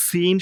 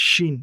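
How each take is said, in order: First: সিন with a firm, thin hissed s; slow firm s, long ee in সিন; hard সিন. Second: শিন with a heavy, broad sh; thick শিন. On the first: Teacher contrasts two letters, hard drawn-out সিন. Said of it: "এটি সিন শক্ত". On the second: Teacher says make it a bit fat, thick drawn-out শিন. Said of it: "একটু মোটা করে বলতে হবে". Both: Shown as a demonstration.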